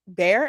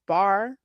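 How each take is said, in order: First: The vowel sounds like 'air'. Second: The vowel sounds like 'ah'. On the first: Other people said the name this way. The speaker calls it wrong. "they keep pronouncing it like bear" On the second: This is how the name is really said. The speaker calls it right. "it's it's bar"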